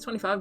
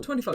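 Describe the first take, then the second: First: It is said in a normal voice. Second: It is said in a put-on accent.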